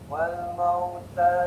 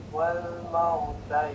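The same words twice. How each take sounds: Both takes have the same delivery.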